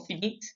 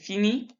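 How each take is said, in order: First: The final t is pronounced. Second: The final t is silent. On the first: The speaker calls it wrong. "We don't say finis or finit" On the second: The speaker calls it right. "We say fini and fini"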